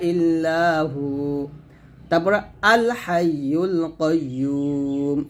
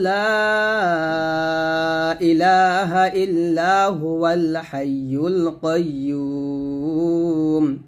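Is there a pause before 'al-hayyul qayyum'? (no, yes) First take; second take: yes; no. First: There is a pause before the last phrase. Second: The phrases run together without a pause. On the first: "আর যদি থামি থামলে এরকম হবে" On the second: "দুটা বাক্য একসাথে মিলাই পড়ি তাহলে এরকম পড়ব"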